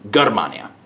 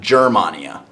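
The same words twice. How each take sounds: First: The word begins with a hard G sound. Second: The word begins with a soft J sound. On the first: The speaker calls it right. "G is going to be a hard G sound" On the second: The speaker calls it wrong. "not Germania"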